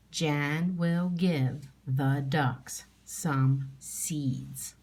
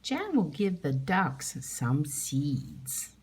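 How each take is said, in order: First: Slow, word by word; teacher reading a sentence slowly; slow reading aloud. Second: Slow, even, word by word; teacher rereading the sentence slowly. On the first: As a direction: read each word slowly and clearly. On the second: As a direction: read it again slowly for the class. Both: Shown as a demonstration. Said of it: "I'm gonna read that one more time".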